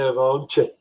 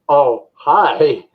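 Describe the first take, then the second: First: The name is said with a J sound: oh-jay. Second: The name is said with an H sound: oh-hi. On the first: The speaker calls it wrong. "I was calling it O J" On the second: The speaker calls it right. "It pronounced oh hi"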